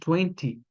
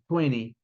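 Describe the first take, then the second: First: The t sound is pronounced clearly and crisply. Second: The t sound is softened, blending into the n. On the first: "marcadão twenty" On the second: "geralmente os americanos eles falam twenty"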